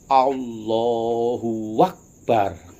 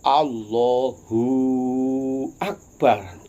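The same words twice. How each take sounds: First: A w sound links the two words. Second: The u before the second word is drawn long. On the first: "Contoh wawu yang hidup" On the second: "Wawu yang mati"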